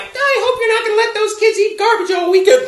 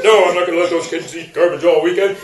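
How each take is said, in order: First: Very high mock wife voice; nagging ex-wife. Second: Put-on voice, low beside the wife's; retorting ex-husband. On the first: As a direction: nag in a put-on, high-pitched voice. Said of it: "the wife says something like". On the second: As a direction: answer back in a low mock husband voice. Husband's reply mimicking the ex-wife.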